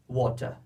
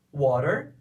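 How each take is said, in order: First: Water with a crisp t and no r, "wɔtɐ"; water, British style, hard t; British pronunciation. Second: Water with a tapped t and a final r, "wɔɾeɾ"; American pronunciation. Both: Shown as a demonstration. Teacher contrasting two pronunciations side by side. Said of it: "Olha a diferença".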